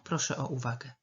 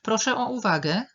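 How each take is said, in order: First: Said in the usual way. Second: Raised, higher and louder announcement; calling for attention. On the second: Acted. Someone asking a meeting for attention, calling out. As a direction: call the room to order. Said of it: "czyli jeżeli ktoś mówi".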